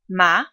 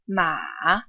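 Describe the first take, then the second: First: The pitch rises from middle to high. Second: The pitch dips low, then goes back up. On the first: "The second tone rises in pitch" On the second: "The third tone dips and goes back up"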